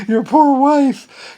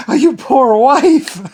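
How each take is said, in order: First: High, loud, slow drawn-out sympathy; mock pity. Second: High, slow, laughing "poor wife"; laughing pity. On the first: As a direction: pity her theatrically. Repeats mock pity for wife. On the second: Pretend. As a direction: laugh through mock sympathy.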